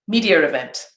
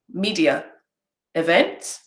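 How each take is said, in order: First: An R sound links the two words. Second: The words are separated with no R sound.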